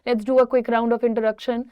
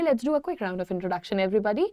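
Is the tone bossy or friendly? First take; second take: bossy; friendly. First: It sounds bossy and robotic, like an order. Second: It sounds warm and friendly, like an invitation.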